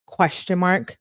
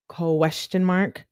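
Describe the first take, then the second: First: Said in the usual way. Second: "question mark" slowly stretched out; slow, over-enunciated "question mark"; drawn-out repeat. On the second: Shown as a demonstration. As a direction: draw out each syllable of "question mark". Repeats punctuation slowly for effect.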